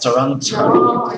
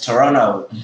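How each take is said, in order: First: The t after the n is clearly pronounced. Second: The t after the n is dropped. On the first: "instead of" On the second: "the man says"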